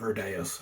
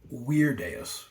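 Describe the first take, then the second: First: The name begins with a V sound. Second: The name begins with a W sound. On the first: This is the familiar anglicized reading. "I call him Verdeus" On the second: This is the accurate Latin reading. "the actual pronunciation, if we were being accurate, would be Weirdeus, because Latin has uh, V's that sound like W's"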